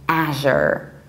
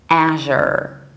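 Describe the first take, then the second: First: It is said with an American pronunciation. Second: The same.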